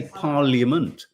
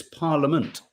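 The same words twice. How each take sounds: First: PARLIAMENT with the I sounded, PARL-yuh-ment; habitual pronunciation. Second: PARLIAMENT with a silent I, PAR-luh-ment; correct parliament. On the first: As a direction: put a Y glide in parliament. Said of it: "I always say parliament". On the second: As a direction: say parliament without any Y sound. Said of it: "but it's parliament". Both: Shown as a demonstration.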